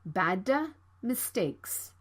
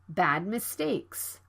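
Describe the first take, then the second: First: An extra vowel follows the released D. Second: The D stops and moves straight to M. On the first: The speaker calls it wrong. "Don't say it like bada mistakes" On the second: The speaker calls it right. "You need to stop the D sound and move to the M sound right away"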